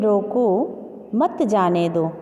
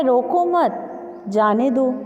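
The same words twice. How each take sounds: First: "रोको", pause, then "मत जाने दो" slowly; pause after रोको. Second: "रोको मत" together, pause, then "जाने दो"; pause after मत. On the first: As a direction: order to stop: break after रोको, stretch it out. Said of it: "रोकने का आदेश है". ("रोको" के बाद ठहराव, फिर धीरे "मत जाने दो") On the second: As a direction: order to let go: slow, break after मत. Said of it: "इसमें न रोकने का". ("रोको मत" साथ में, ठहरकर धीरे "जाने दो") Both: Shown as a demonstration.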